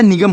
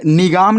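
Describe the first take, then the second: First: "निगम" with a short second vowel, ni-gum; correct pronunciation. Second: "निगाम" with a long aa, ni-gaam; wrong pronunciation. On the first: Teacher giving students the real word, correct pronunciation. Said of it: "होता है". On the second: Teacher showing students the misreading to avoid, wrong pronunciation. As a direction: stretch the second vowel of "निगाम". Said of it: "नहीं होता". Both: Shown as a demonstration.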